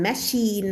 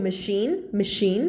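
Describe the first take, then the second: First: "machine" with a full a, ma-SHEEN; "machine" mispronounced with a full first syllable; wrong machine. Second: "machine" with a weak first vowel; correct machine. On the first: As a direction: give "machine" a strong open first vowel. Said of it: "แล้วก็ไม่อ่าน". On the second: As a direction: say "machine" as muh-SHEEN. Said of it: "ออกเสียงว่า machine". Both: Shown as a demonstration.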